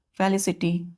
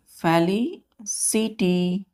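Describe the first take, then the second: First: Said in the usual way. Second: felicity very slowly, split as "feli, ci, ty"; broken into parts. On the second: Shown as a demonstration. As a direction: pause between the parts of felicity. Teacher sounds word out in parts.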